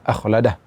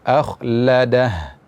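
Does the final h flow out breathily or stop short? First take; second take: short; breathy. First: The final h is rushed and cut short. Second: The final h flows out with breath. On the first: The speaker calls it wrong. "jangan terlalu terburu-buru, misalnya akhladah, tidak demikian" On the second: The speaker calls it right. "tapi akhladah"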